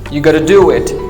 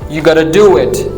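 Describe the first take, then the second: First: 'Have got to' is squeezed into a quick 'gotta'. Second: 'Have got to' is squeezed into a quick 'gotta'.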